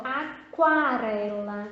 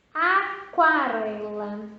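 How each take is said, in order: First: Aquarela again, slow and drawn out; repeat aquarela slowly. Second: Aquarela slowly with a clear kwa; slow model word. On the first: Teacher asking the class to say aquarela with her. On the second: Teacher modelling aquarela for the class to repeat. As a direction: draw out aquarela for them to repeat. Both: Shown as a demonstration. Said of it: "Fala aí, ó".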